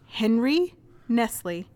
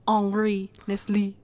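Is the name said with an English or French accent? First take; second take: English; French. First: The name is said with an English accent. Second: The name is said with a French accent.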